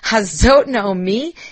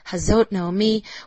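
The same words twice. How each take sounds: First: It is said with a mocking tone. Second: It is said with a pitying tone.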